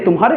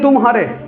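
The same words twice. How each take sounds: First: It is said as one word with no break. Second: There is a break after 'tum'. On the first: It belongs to you. "एक ही वो बोल दिए" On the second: You lost. "हार गए"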